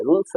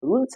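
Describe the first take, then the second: First: "रूल्स" with a hissed s at the end; wrong s ending. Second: "रूल्स" ending in a voiced z or j sound; correct z ending. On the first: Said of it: "रूल्स ना कहकर". ("रूल्स" के अंत में स की ध्वनि) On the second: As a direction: say "रूल्स" with ज for the final s. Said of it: "ज हो जाएगा". ("रूल्स" के अंत में ज की ध्वनि) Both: Shown as a demonstration.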